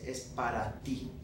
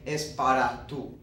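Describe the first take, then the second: First: "Es para ti" with ti, ending on "tee"; correct pronoun form. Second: "Es para tú" with the subject form tú, ending on "too"; wrong pronoun form. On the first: Teacher giving students the correct form: "ti" said clearly. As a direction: say it the right way, with ti. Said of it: "I'd say". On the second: Teacher showing students the wrong form: "tú" said clearly. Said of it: "I wouldn't say". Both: Shown as a demonstration.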